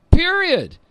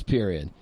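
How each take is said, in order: First: "period" set apart, pitched high; emphatic period. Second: "period" dropped low and soft; final period. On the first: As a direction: punch "period" high after a pause. Caps his point emphatically. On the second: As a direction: close on a low, quiet "period". Repeats the point, closing it. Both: Real, not acted.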